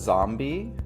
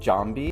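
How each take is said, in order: First: The word begins with a buzzing Z sound. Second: The word begins with a J sound. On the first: The speaker calls it right. "in English, there's the word zombie" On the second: The speaker calls it wrong. "you would pronounce it more like zombie"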